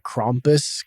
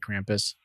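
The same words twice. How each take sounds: First: The name is said with German-style vowels. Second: The name is said with English-style vowels. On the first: This is closer to the original German. "probably closer to Krampus because of the German" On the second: This is the casual everyday way. "I just say Krampus"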